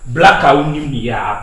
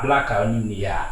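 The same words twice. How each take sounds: First: Loud insult. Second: Said in the usual way. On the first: Acted. Repeats the insult, then softer.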